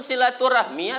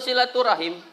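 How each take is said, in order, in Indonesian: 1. Kata ini berakhir dengan bunyi 'rahmi'. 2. Kata ini berakhir dengan bunyi 'rahim'. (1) "Silaturahmi betul" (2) "silaturahim pun betul juga"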